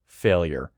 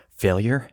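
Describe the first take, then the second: First: "failure," with a flat falling tune; falling statement. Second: "Failure?" rising sharply at the end; rising question. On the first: Shown as a demonstration. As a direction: read "failure," as a plain stated label. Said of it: "Failure? How did I fail?". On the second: Acted. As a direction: ask "Failure?" in disbelief, pitch rising. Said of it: "How did I fail?".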